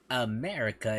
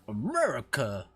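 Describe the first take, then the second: First: It is said in a plain, neutral accent. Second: It is said in a put-on Southern US accent. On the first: "we don't pronounce it America" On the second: "it's pronounced America"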